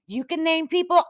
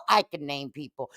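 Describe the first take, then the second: First: "You can name people" pitched high, held up at the end; mocking challenge. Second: "I can name people" dropped low and softer, weight on "I"; firm comeback. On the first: Host answering Julie's nicknames, "You can name people" as a high challenge. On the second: Acted. Host claiming the same right, "I can name people" as a low comeback. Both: Tit-for-tat retort to Julie.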